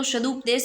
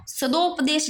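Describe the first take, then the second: First: सदुपदेश with short 'u' after d; correct short u. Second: सदोपदेश with long 'do' in the middle; wrong o vowel. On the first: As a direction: say सदुपदेश as 'sa-dup-desh'. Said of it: "सदुपदेश ही होता है". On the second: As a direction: say सदोपदेश as 'sa-dop-desh'. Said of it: "कुछ लोग इसको". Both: Shown as a demonstration.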